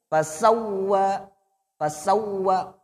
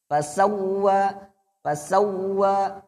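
First: Fasawwa with the double w pressed hard. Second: Fasawwa slow and sung, the w dragged out. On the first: Teacher shows the correct pressed fasawwa to students. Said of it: "ditekan, Pak". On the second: Teacher shows the wrong dragged fasawwa to students. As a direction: drag fasawwa lazily. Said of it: "Jangan diseret". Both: Shown as a demonstration.

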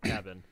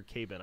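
First: "cabin" with short a, as in cat; cabin as heard. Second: "cabin" said "cay-bin", long "ay"; misheard cabin. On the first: Correcting the commenters, cabin with a short a. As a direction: say "cabin" as plain "KAB-in". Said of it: "I heard cabin". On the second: Denying what commenters heard, cabin pronounced kay-bin. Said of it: "I did not hear cabin". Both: Shown as a demonstration.

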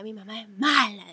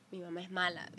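First: Put-on louder childish whine about mom; childish complaint. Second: Said in the usual way. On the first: Kid complaining about her mom, louder and sulky. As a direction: sulk it out like a kid. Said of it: "Yo a veces decía". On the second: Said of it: "no puede agarrar y decir".

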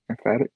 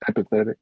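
First: "emphatic" said instead of "empathetic", with a rising, unsure tune; mispronounced word. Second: "empathetic" said correctly as em-pa-THET-ic, after the correction; corrected word. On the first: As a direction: stumble on the word as "emphatic", em-FAT-ic. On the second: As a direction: land the fixed word "empathetic" cleanly. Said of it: "Yes, that's the word". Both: Real, not acted.

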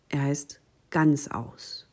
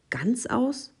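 First: Said in the usual way. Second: Astonished cry. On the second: A narrator's reading. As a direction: echo "Ganzaus" high in disbelief. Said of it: "rief die Maus". ("Ganzaus" hoch und ungläubig nachgefragt)

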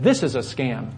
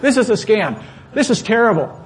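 First: Said in the usual way. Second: The line again, higher and louder; loud retelling. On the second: Shown as a demonstration. Pastor repeating his words to the clerk, now louder and heated. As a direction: punch "This is a scam" out heated and loud.

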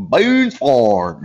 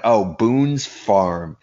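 First: Thick mock drawl, accent swallowing the words; garbled drawl impression. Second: Said in the usual way. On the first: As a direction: mimic her barely intelligible drawled accent. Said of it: "understand what the fuck this lady was saying". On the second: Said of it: "I'm like".

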